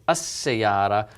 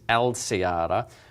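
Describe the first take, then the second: First: The L merges into a doubled S sound. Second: The L is clearly pronounced before the S. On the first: The speaker calls it right. "it sounds more natural to say As-Sayara" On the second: The speaker calls it wrong. "versus Al-Sayara"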